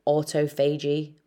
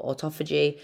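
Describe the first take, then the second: First: Autophagy said as auto-FAY-jee; autophagy split as auto plus phagy, rhyming with cagey; alternative pronunciation. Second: Autophagy stressed on the second syllable; autophagy with a short o in TOPH; alternative pronunciation. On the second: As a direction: say autophagy as aw-TOFF-uh-jee. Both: Shown as a demonstration. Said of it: "however you wanna pronounce it".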